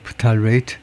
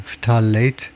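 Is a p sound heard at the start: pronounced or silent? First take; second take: pronounced; pronounced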